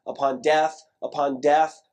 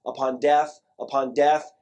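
Both takes have the same delivery.

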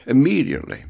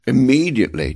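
First: Immediately stressed again, falling. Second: Immediately with weight, louder, falling at the end; stress on immediately. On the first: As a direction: give Immediately weight, falling tune. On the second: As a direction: lean hard on Immediately, then let it fall. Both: Shown as a demonstration. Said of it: "I stress this word".

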